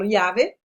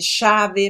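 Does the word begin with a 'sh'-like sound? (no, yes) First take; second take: no; yes. First: The first sound is not a 'sh' sound. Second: The first sound is a 'sh' sound. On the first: This is how the speaker personally says it. "Eu falo llave" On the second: Some people in certain regions say it this way. "chave mesmo, como se fosse um X"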